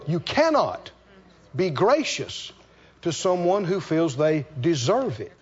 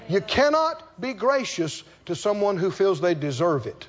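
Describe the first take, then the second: First: It is said very slowly. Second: It is said at normal pace.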